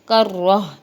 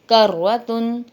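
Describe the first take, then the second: First: The word ends with a soft h sound. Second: The word ends with a full -tun ending.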